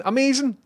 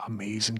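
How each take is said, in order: First: Much higher, loud, falling "Amazing"; excited amazing. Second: Said in the usual way. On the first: Real, not acted. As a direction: burst out "Amazing" high and loud. Reacting to chat message.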